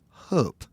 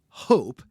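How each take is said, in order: First: It is said with a Scandinavian vowel and sound. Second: It sounds like the ordinary English word hope. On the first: "Norwegians or Swedes might pronounce this word closer to" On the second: "it sounds like a very conventional English word"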